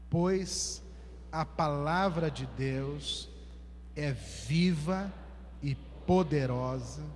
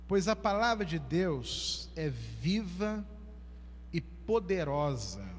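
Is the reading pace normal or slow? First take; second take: slow; normal. First: It is read very slowly. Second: It is read at a normal pace. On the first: "mas não leia com pressa não, vamos ler bem devagar" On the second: "Eu vou ler a primeira vez"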